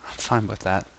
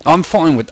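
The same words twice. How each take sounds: First: Said in the usual way. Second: A light imitation of the narrator's British accent. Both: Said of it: "I'm absorbing his accent".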